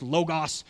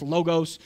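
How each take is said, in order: First: Logos said LOH-gahs, long O then short ah; pronounced LOH-gahs. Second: Logos said LOH-gohs, long O sounds; pronounced LOH-gohs. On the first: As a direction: logos with a long first O, short second vowel. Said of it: "sometimes pronounced logos". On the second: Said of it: "Sometimes pronounced logos". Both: Shown as a demonstration.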